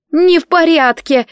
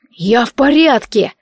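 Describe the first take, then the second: First: High, loud, tearful protest on не; almost crying, frightened girl; girl nearly in tears in the dark; near sobbing. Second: Slow, raised call from below. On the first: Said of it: "едва не рыдала Селия". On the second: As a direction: shout up that you're fine. Calling up from a crevice. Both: Acted.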